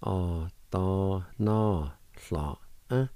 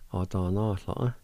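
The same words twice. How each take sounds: First: "Á dá ná hla, eh" drawn out slowly; slow demonstration. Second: "Á dá ná hla, eh" run together as one word; joined-up pronunciation. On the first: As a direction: stretch each syllable, small gaps between. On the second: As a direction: blend the syllables without pauses. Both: Shown as a demonstration. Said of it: "now I'll pronounce these words".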